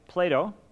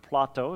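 First: The name is pronounced the usual English way. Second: The name is pronounced the Greek way.

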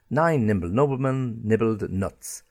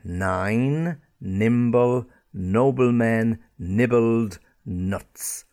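First: The phrase is said at a faster pace. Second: The phrase is said at a slower pace.

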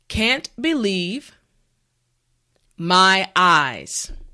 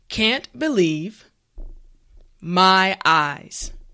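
No difference in how they are said.

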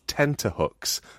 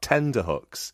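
First: The middle consonant is a t sound. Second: The middle consonant is a d sound. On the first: The speaker calls it right. "it is tenterhooks" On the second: The speaker calls it wrong. "not tenderhooks"

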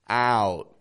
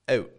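First: The vowel is open, with a wide jaw. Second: The vowel is tighter, with little lip movement. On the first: "lowers it down and kind of widens their jaw a little bit" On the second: "a Canadian does this with very minimal movement in the lips"

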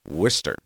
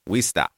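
First: The name is said in a general pronunciation. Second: The name is said in a local Massachusetts accent. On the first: "you actually pronounce Worcester" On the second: "if you're really local to Massachusetts"

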